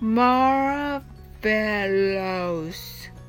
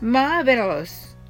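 First: The word is said slowly. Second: The word is said fast.

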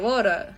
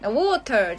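First: The middle t sounds like a d. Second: The middle t is a clear t sound.

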